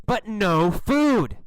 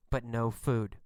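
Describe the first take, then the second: First: Slow, punched "but no food"; mounting exasperation. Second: Low, soft, deflated aside; understated letdown. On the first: Narrator at the longest fruitless wait, slow emphatic exasperation. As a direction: drag out "no" and hit "food" hard. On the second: Narrator reports the first fruitless wait, quietly deflated. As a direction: drop "but no food" low and quiet. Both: A narrator's reading.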